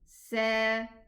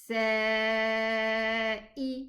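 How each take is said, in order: First: The vowel is short. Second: The vowel is held twice as long. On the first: The speaker calls it wrong. "Instead of saying sa" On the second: The speaker calls it right. "elongate this pronunciation double the time"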